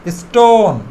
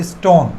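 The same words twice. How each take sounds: First: "stone" with a long stretched o, falling at the end; drawn-out vowel. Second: Said in the usual way. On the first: Shown as a demonstration. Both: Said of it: "একটু টেনে বলতে হবে".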